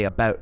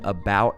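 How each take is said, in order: First: It is said with a Canadian-style vowel. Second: It is said with a plain American vowel. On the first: "I don't say it like that, so I'm not Canadian" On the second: "if I've said about in this video"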